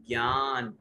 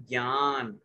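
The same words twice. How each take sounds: No difference in how they are said.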